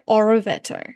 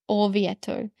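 First: An extra i sound follows the r. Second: No extra vowel follows the r. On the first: The speaker calls it wrong. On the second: The speaker calls it right.

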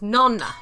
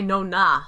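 First: The stress falls on the first syllable. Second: The stress falls on the second syllable. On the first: The speaker calls it right. "It's nonna" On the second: The speaker calls it wrong. "you don't say Nonna. That's not where the emphasis is in the word"

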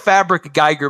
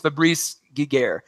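First: The name is read as it looks in spelling. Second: The name is said unlike its spelled look. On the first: The speaker calls it wrong. "It looks like Fabric Geiger" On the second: The speaker calls it right. "but I think it's Fabrice Giguère"

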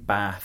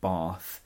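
First: The vowel in Bath is short. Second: The vowel in Bath is long.

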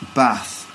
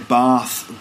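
First: It is said in a northern English accent. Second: It is said in a southern English accent. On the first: "in the north they'd say" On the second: "So we'd say"

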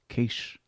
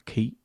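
First: The name ends with an 'sh' sound. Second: The name ends with a 'th' sound.

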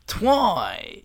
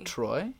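First: The R is replaced by a W sound. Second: The word starts with a clear R sound.

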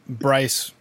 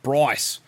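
First: The name is said in a plain, non-Australian accent. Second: The name is said in an Australian accent. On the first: The speaker calls it wrong. "it doesn't sound as attractive when I say it" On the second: The speaker calls it right. "when you have an Australian accent, it's like Bryce"

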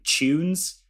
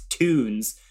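First: The word begins with a ch-like sound. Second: The word begins with a plain t sound.

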